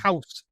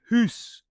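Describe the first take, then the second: First: The vowel is an 'ow' sound. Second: The vowel is an 'oo' sound.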